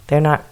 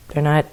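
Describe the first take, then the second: No difference in how they are said.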